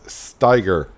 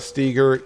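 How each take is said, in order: First: The first syllable rhymes with 'eye'. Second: The first syllable rhymes with 'egg'. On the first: The speaker calls it right. "it's Steiger" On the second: The speaker calls it wrong. "It's not Steger"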